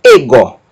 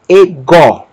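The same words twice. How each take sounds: First: Ego stressed on the first syllable, E-go; deliberately misplaced accent on the E of ego; wrong stress demo. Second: Ego stressed on the last syllable, e-GÓ; light e, then a firm falling gó in ego; stress on final syllable. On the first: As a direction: punch the E of ego, let go fall away. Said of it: "Nós não vamos pronunciar". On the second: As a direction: land the weight on the gó of ego. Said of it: "Sílaba tônica é o gó". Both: Shown as a demonstration.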